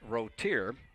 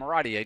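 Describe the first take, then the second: First: The name is said without a French pronunciation. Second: The name is said with a French pronunciation. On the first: The speaker calls it right. "his name is pronounced Rotier" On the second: The speaker calls it wrong. "doing the French pronunciation of it"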